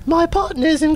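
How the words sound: It is said in a put-on character voice.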